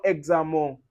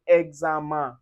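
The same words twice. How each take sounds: First: Examen ending like on, wrong. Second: Examen ending in nasal un; the right way to say examen; correct examen. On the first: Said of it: "examen is wrong". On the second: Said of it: "We say examen". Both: Shown as a demonstration.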